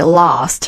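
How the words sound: It is said in a British accent. "British English we would say last"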